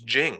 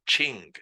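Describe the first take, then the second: First: The word begins with a soft 'j' sound. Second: The word begins with a 'ch' sound. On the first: The speaker calls it right. "it's Jing" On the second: The speaker calls it wrong. "It's not Qing"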